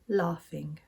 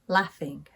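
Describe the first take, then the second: First: It has a long southern A vowel. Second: It has a short northern A vowel. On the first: "In the south of England, ... these words are pronounced" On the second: "I pronounce these words with an A sound"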